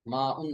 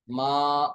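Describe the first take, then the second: First: माउन with -un after the long aa; rejected full ending. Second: मा on one long open aa; pausal form. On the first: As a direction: say माउन in two parts, ending sounded. (माउन, तनवीन के साथ) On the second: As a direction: hold मा with no -un after it. (मा, आख़िर में वक्फ) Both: Shown as a demonstration. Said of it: "माउन नहीं".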